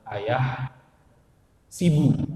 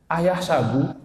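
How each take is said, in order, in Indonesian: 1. Vokal setelah s adalah i. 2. Vokal setelah s adalah a. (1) "itu bisa dibaca ayah sibu" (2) "Qora Asim wa Hamzah wa Ibnu Amir ayah sabu"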